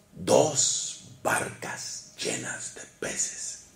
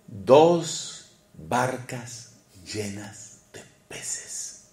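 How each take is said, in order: First: Slow, hushed whisper. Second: Very slow, weighing each word; slow emphasis. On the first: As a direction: whisper it in awe, very slowly. (susurro lento y asombrado) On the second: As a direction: draw it out slowly for effect. (lento y enfático) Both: Shown as a demonstration. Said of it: "repeats the line, then whispers it".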